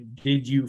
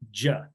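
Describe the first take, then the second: First: Both words are said fully and separately. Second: Both words merge into one short syllable. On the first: "doesn't say" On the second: "They just say"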